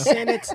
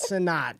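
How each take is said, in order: First: It sounds like the word 'senate'. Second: It ends with a stressed 'nat' sound. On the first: The speaker calls it right. "it is Senate" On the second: The speaker calls it wrong. "not Senat"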